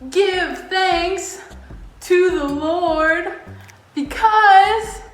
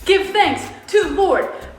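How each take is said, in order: First: It is said at a normal, steady pace. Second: It is said at a faster pace.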